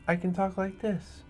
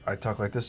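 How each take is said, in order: First: It is spoken in another altered character voice. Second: It is spoken in the speaker's natural voice. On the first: "changing the tone of your voice" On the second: "I talk like this normally"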